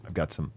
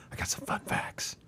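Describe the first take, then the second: First: Said in the usual way. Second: Playful stage whisper. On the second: Acted. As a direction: whisper it like a secret. Teasing whisper of fun facts.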